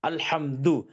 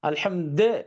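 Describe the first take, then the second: First: The word ends with a clear 'u' vowel. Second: The word ends with a short 'a' vowel. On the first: The speaker calls it right. "அல்ஹம்து அப்படிங்கிறது தெளிவா சொல்லணும்" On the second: The speaker calls it wrong. "அது கரெக்ட்டான எக்ஸாக்ட் புரனன்சியேஷன்ல இருந்து மிஸ் ஆயிடுச்சு"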